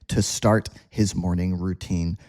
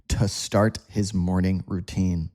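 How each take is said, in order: First: The word 'to' has a weak, relaxed vowel. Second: The word 'to' has a weak, relaxed vowel.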